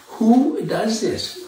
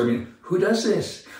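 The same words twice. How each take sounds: First: "Who does this?" drawn out very slowly, pitched higher, stress on "Who" with a rising end; slow emphatic repeat. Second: Said in the usual way. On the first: Real, not acted. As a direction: stretch "Who does this?" slowly, leaning on "Who" in disbelief.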